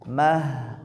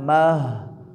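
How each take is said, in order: First: The syllable is pronounced thin. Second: The syllable is pronounced thick. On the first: The speaker calls it right. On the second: The speaker calls it wrong. "Mah salah ya"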